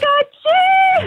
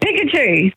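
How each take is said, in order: First: It is said in a higher, put-on voice. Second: It is said in a lower, plain voice.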